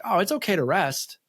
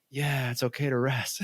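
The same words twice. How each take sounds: First: Lightly voiced wife, a higher, soothing lilt; quoting the wife kindly, pitched up; wife's gentle permission. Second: Softer, offhand echo of her words; brushing it off while pretending to agree; mock agreement. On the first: Husband quoting his wife telling him to rest, higher and soothing. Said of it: "And she's like". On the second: Husband echoing his wife's advice back, soft and dismissive. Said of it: "And I'm like".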